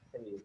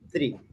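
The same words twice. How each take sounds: First: The word is said gently and easily. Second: The word is pushed out with force. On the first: The speaker calls it right. "Soft and easy" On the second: The speaker calls it wrong. "Do not force as in three"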